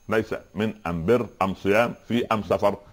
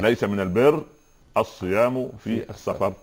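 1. تُنطق أداة التعريف "am". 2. تُنطق أداة التعريف "al".

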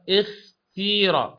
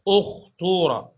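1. تُنطق الكلمة بحركة 'ee'. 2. تُنطق الكلمة بحركة 'oo'. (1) "والكسر نحو" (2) "الضم نحو"

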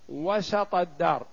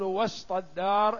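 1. السين تتبعها حركة الفتحة. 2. لا توجد حركة بعد السين. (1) "تقول مثلا" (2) "ولا تقول وسط الدار إلا على ضعف"

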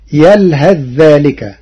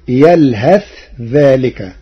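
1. يندمج 'th' الأخير في الكلمة التالية. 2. يُنطق 'th' الأخير بوضوح ومنفصلًا.

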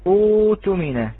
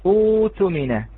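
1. صوت الواو الطويل يحل محل الهمزة القطعية. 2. صوت الواو الطويل يحل محل الهمزة القطعية.

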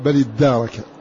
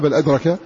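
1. الدال مشددة، ويوجد مد طويل بعدها. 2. الدال مفردة، ولا يوجد مد طويل بعدها. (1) "بتشديد الدال وفتحه وإثبات ألف بعده" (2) "ما قال بل أدرك"

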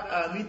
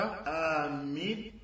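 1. Le son m est court et simple. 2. Le son m est tenu longuement et doublé. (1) "Lorsque tu ne mets pas le shadda" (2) "Et lorsque tu mets le shadda"

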